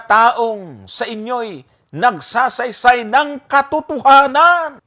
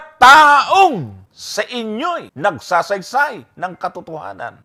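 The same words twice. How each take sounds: First: The stress falls on the word katotohanan. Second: The stress falls on the word taong. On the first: The point is that he is telling the truth. The speaker calls it right. "Nasaan yung accent? Yung katotohanan" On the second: The point is proving he is a human being. The speaker calls it wrong. "So nasaan yung accent? Taong!"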